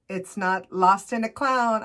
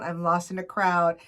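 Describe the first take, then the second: First: Slow, stressed "clown" with a falling end; misheard lyric. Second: "crowd" said plainly with a clear r; correct lyric. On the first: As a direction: say "lost in a clown" slowly, leaning on "clown". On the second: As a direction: state "lost in a crowd" as the correction. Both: Shown as a demonstration.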